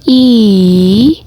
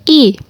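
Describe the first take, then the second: First: The vowel carries the third tone. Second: The vowel carries the fourth tone. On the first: "nada ketiga" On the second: "nada keempat"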